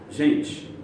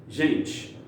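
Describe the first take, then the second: No difference in how they are said.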